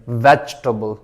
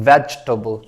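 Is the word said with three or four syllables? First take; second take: three; three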